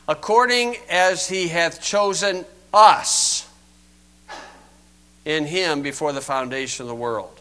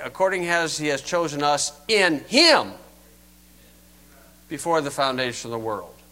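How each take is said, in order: First: The word us carries the main stress. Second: The word us carries no special stress. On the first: "A Calvinist accent upon us" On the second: "What if we read it this way?"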